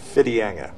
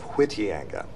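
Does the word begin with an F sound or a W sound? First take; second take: F sound; W sound. First: The word begins with an F sound. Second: The word begins with a W sound. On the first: The speaker calls it right. "The W H is pronounced F" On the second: The speaker calls it wrong. "instead of"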